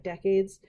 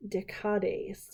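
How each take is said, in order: First: "decades" as DECK-aids; plain English pronunciation. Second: "decades" said as day-KAH-days; accented-E pronunciation. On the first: Explaining the supposed pronunciation, "decades" as DECK-aids. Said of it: "supposed to be pronounced like decades". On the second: Reading the revolutionary ten-day weeks' name, "decades" as day-KAH-days. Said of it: "there's that little slanted line above the E". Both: Shown as a demonstration.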